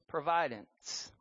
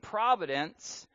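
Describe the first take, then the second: First: The stress is on the second syllable. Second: The stress is on the first syllable. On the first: "say providence. Because that is what's happening here. God is providing" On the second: "Instead of saying providence"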